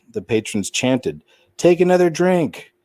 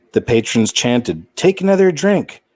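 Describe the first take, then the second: No difference in how they are said.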